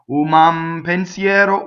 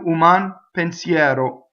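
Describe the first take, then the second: First: The two words run together without a break. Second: A brief stop follows the N before pensiero. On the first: The speaker calls it wrong. "If you do with a connection" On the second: The speaker calls it right. "If you do the N, you just stop for a second"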